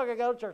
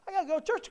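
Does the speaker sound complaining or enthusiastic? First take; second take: complaining; enthusiastic. First: It is said in a grumbling, complaining tone. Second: It is said in an eager, positive tone. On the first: Going to church feels like a burden. The speaker calls it wrong. "We complain about going to church" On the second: Going to church is something to look forward to. The speaker calls it right. "Talk about it positive"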